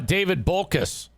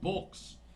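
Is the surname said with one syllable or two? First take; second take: two; one. First: The surname is said with two syllables. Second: The surname is said with one syllable. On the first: The speaker calls it wrong. "I guess I was saying it wrong" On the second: The speaker calls it right. "it's Bolks, not Bolkus"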